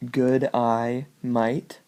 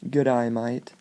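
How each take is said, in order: First: Three words stretched out slowly; slow and separate. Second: A light Australian good eye mate; Australian accent. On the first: Teaching the second mnemonic, words said slowly. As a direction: spell it out word by word, slow. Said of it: "if you say". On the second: Demonstrating the Australian pun in a light Australian accent. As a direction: say it like an Australian greeting. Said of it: "sounds like good day, mate, on an Australian". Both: Shown as a demonstration.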